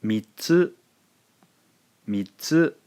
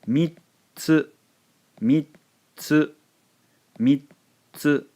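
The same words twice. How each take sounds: First: "Mitsu" as two even syllables, mi then tsu; plain two-beat "Mitsu", no added silent beat. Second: "Mitsu" as mit, silent beat, tsu, pitched high; high "Mitsu" with a long silent stop in the middle; three-beat mittsu. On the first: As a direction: say "Mitsu" with only a brief stop before tsu. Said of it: "from a two-syllable". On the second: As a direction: cut "Mitsu" short after mi, hold a clear gap, release tsu. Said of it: "that pronunciation changes thusly". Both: Shown as a demonstration.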